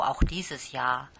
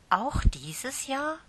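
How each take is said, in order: First: Said in the usual way. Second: Hoch und langsam, „Jahr“ steigt fragend an; hoffnungsvoll. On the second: Acted. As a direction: hoffend nachfragen, Stimme geht nach oben. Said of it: "fragte Lieschen hoffnungsvoll". (Lieschen fragt die Tante voller Hoffnung)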